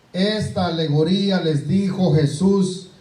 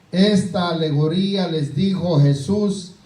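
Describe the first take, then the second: No difference in how they are said.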